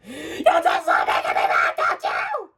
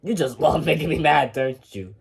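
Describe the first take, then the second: First: High, furious screech; shrieked angry accusation; emotional screaming. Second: Said in the usual way. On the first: Acted. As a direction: explode into a high-pitched scream. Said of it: "No need to get so emotional".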